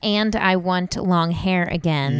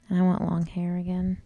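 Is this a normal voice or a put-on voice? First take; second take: normal; put-on. First: It is said in her normal voice. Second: It is said in a put-on voice.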